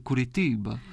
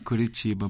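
First: It is said in a European Portuguese accent. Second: It is said in a Brazilian Portuguese accent.

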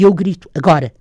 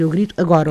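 First: There is a pause before the last word. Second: There is no pause before the last word. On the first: The now marks the moment the shot is fired. The speaker calls it right. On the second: The now just says when the crying happens. The speaker calls it wrong.

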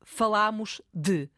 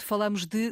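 First: The stressed a is open. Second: The stressed a is closed. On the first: It refers to the past. "Se quiser dizer corretamente, será falámos de" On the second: It is a regional pronunciation of the past. "vai continuar a ouvir certamente falamos de, sobretudo, a norte do país"

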